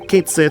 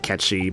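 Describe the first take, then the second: First: The name ends with a 'sith' sound. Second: The name ends with a 'chee' sound. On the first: This is the form used in the remake. "how they pronounce it in the remake" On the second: This is the form it is supposed to have. "I know it's supposed to be Ketchi"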